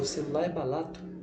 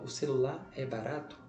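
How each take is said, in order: First: An r sound is replaced with an l sound. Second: The r sound is pronounced normally. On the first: The speaker had a brief lapse of attention. The speaker calls it wrong. "toca o R pelo L em uma fala rápida" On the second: The speaker is paying attention to what they say. The speaker calls it right. "ela fala o certo"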